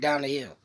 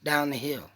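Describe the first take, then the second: The two takes are said the same way.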